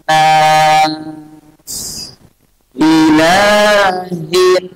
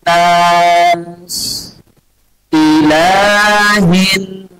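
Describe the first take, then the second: The two takes are said the same way.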